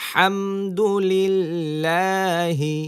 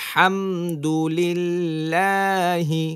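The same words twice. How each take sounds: Both takes have the same delivery.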